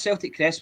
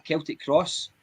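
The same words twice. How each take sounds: First: Celtic said "SEL-tik", starting with an S; soft C. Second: Celtic said "KEL-tik", starting with a K; hard C. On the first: Host naming the football club's crest, Celtic with a soft C. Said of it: "not with a soft C". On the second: Host correcting for last week's listeners, Celtic with a hard C. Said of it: "it's with a hard C". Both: Shown as a demonstration.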